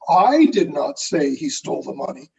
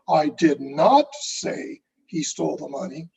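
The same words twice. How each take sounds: First: The stress falls on the word I. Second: The stress falls on the word say. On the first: Someone else said it. "who did say it?" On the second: It was communicated some other way. "then how did you communicate that message?"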